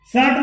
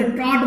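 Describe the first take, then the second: First: साट said with an s sound, the wrong way; wrong soft c. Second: काट said with a k sound, the right way; hard c. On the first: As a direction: start साट with s, as the mistake to avoid. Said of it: "साट नहीं बोलते". (साट को स की ध्वनि से, गलत उच्चारण) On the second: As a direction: start काट with a clear k. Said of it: "काट बोलते". (काट को क की ध्वनि से, सही उच्चारण) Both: Shown as a demonstration.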